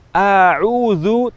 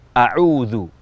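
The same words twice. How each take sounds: First: The first vowel is drawn out long. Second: The first vowel is kept short. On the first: The speaker calls it wrong. "terpanjangkan bunyi a" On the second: The speaker calls it right. "tidak dibaca panjang"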